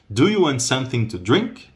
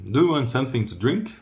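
First: It is said slowly and clearly. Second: It is said fast and flattened.

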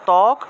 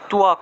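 First: The first consonant has no w-glide after it. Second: The first consonant is followed by a w-glide. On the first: This is the Bengali pronunciation. "বাংলায় বললে ত্বক" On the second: This is the Sanskrit pronunciation. "সংস্কৃতে উচ্চারণ হবে তুয়াক"

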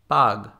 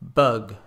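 First: The vowel is an open Spanish-like 'ah'. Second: The vowel is the short English 'uh' sound. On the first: The speaker calls it wrong. "with the Spanish ah" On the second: The speaker calls it right. "and then the English"

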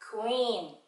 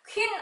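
First: It is said softly with an English accent. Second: It is said forcefully with a Korean accent. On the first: The speaker calls it right. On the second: The speaker calls it wrong.

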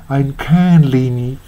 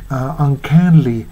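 No difference in how they are said.

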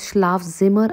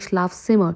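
First: The z sounds like a buzzing z. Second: The z sounds like ts. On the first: The speaker calls it wrong. "I'm not pronouncing this as Schlafzimmer" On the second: The speaker calls it right. "I'm saying Schlafzimmer. So Z is pronounced as Z in German"

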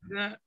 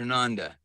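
First: The first vowel sounds like in panda. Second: The first vowel sounds like in Rhonda. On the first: "It could have been Panda or Rhonda" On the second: "It could have been Panda or Rhonda"

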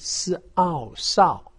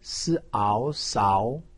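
First: The pitch falls sharply from high to low. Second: The pitch rises from middle to high. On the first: "四声" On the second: "二声"

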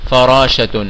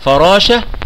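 First: The word ends with a t sound. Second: The word ends with a soft h sound. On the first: The word runs on into more speech. "وفي حالة الوصل تنطق تاء" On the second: The word ends the phrase. "في حالة الوقف تنطق ها"

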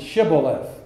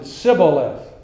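First: The word begins with a sh sound. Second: The word begins with an s sound. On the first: The speaker is on the judge's side. "The people who were associated with Jephthah would pronounce it Shibboleth" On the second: The speaker is not on the judge's side. "Those who were not with Jephthah had to pronounce it Sibboleth"

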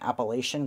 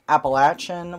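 First: The word is said the northern way. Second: The word is said the non-northern way. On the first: This is how it is said in the northern part of the region. "I grew up saying Appalachian because I lived in the northern part of it" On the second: This is the generally accepted pronunciation. "which is, I believe, the correct way to say it"

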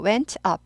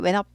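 First: Said slowly with the t clearly pronounced. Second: Said quickly with the t barely heard. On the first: "천천히 하실 때는 발음 나요" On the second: "빨리 할 때 went up by 이렇게 되죠"

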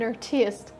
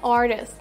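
First: The stress is on the second syllable. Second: The stress is on the first syllable.

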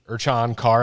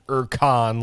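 First: The middle consonant is a soft ch sound. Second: The middle consonant is a hard k sound. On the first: "I guess that's the correct pronunciation" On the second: "like a hard K sound"

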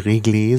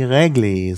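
First: The first vowel is a closed e sound. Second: The first vowel is an open e sound. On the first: This is how most speakers say it. "die Mehrheit, die régler sagt" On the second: This is how a minority of speakers say it. "also wie Règle"

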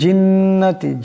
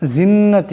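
First: The first sound is a clear j sound. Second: The first sound is a z-like sound. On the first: The speaker calls it right. "এই জিমের উচ্চারণটি জিহ্বার মধ্যবর্তী স্থান থেকে হবে।" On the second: The speaker calls it wrong. "জিন্নাতি এমন করে পড়া যাবে না।"

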